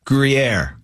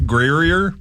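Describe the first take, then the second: First: "Gruyere" as two clean syllables, "gree-AIR"; higher, assured "gree-AIR" for "Gruyere"; correct pronunciation. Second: "Gruyere" stumbled as "gree-ree-er"; questioning extra-syllable "Gruyere", "gree-ree-er"; mispronounced Gruyere. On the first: Shown as a demonstration. Co-host corrects the reader, "Gruyere" as "gree-AIR". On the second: Real, not acted. Reader struggles with the cheese, "Gruyere" as "gree-ree-er". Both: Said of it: "[name] says how you actually say".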